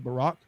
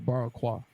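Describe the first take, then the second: First: The word ends without an added 'kwa' syllable. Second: The word ends with an added 'kwa' syllable. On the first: The speaker already knows the word. "If I'm saying I know the word, so I'm gonna say Barack" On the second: The speaker is reading an unfamiliar word. "if I didn't know, I would say Barakwa"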